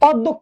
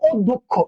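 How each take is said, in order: First: The first vowel is an open 'aw' sound. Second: The first vowel is a closed 'o' sound. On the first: The speaker calls it wrong. "অধ্যক্ষ নয়" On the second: The speaker calls it right. "ওকারের মতো sound করবে"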